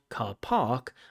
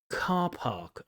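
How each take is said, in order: First: The stress is on the second word. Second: The stress is on the first word. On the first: The speaker calls it wrong. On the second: The speaker calls it right. "the stress falls on the first word"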